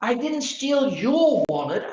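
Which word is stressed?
your. The stress is on "your".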